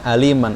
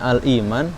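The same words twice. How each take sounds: First: The glottal stop is dropped, vowel joined to l. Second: The glottal stop before the vowel is kept. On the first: This follows a particular reciter's reading tradition. "karena madhab waras seperti itu maka bacanya aliman" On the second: This is the ordinary reading. "seharusnya al-iman di bacaan normalnya"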